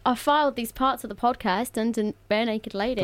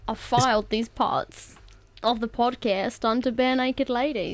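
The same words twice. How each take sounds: First: It is said in the speaker's natural voice. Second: It is said in an Australian-sounding accent.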